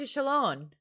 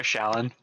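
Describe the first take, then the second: First: "Shallan" with a long open ah; Shallan as SHAL-lahn. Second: "Shallan" with a flat American a. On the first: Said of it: "I just call her Shallan". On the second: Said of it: "my American accent getting in the way". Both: Shown as a demonstration.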